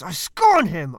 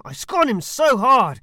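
First: Loud, weighty scorn with a falling end; scornful declaration. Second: Louder, higher, hammed-up scorn; escalating scorn. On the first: Acted. Roman satirist scorning his target, loud and contemptuous. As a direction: spit out the scorn. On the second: Roman satirist outdoing himself in mock scorn, loud. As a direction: push the contempt further, over the top.

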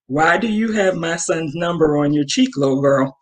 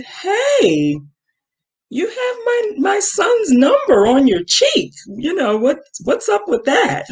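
First: Blunt challenge. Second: High, sing-song fake-friendly confrontation; politely probing. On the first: Retold or imitated. Mom to the girl, what she really wanted to say, blunt. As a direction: drop the politeness and ask it straight. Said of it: "That's what I really wanted to say". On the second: Mom stopping a girl with her son's number, politely probing. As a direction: keep it respectful but pointedly nosy, pitched way up. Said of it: "I wanna still be respectful".

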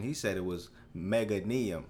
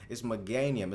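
First: Meganium said MEG-uh-nee-um; friend's pronunciation. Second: Meganium said meh-GAN-ee-um as one word; Meganium, middle syllable GAN; correct pronunciation. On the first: Retold or imitated. Retelling the friend's version, Meganium said MEG-uh-nee-um. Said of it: "his pronunciation". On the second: Shown as a demonstration. Correcting the childhood friend, Meganium said meh-GAN-ee-um. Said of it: "It's one word".

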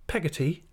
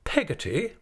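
First: Higher-pitched, mild naming; young mother offering a name; mother's simple answer. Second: High, incredulous rising question; affronted aunt's disbelief; indignant repeat. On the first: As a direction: give the name meekly, pitched up. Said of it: "said my mother". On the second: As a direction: echo the name with indignation, swooping up. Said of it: "repeated Miss Betsy with some indignation". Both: Acted.

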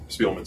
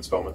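First: First vowel of Spellman as in "feel"; Spellman as SPEEL-man. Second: First vowel of Spellman as in "bell"; Spellman as SPELL-man. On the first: Trying out the teammate's surname, Spellman said as SPEEL-man. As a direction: say Spellman with a long ee, SPEEL-mun. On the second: Settling the teammate's surname, Spellman said as SPELL-man. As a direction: say Spellman with a short e, SPELL-mun. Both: Real, not acted. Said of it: "I thought it was Spellman".

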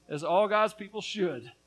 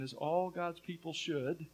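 First: "all God's people should" pressed louder; insistent stress across "all God's people should"; emphatic repeat. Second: Said in the usual way. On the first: Acted. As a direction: drive home "all God's people should" with more force.

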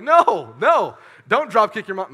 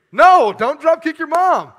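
First: Mock scolding. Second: Much higher, loud, slow shout; mock shout. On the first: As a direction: shout it down like scolding yourself. Scolding himself, loud. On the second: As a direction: yell it like a hammed-up warning. Louder repeat, shouting.

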